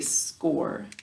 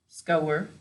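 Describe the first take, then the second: First: The word rhymes with for. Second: The word rhymes with hour. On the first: It is the everyday spoken pronunciation. "When we're speaking, we say score" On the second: It is a spelling pronunciation that sounds out every letter. "so to spell it, we would say"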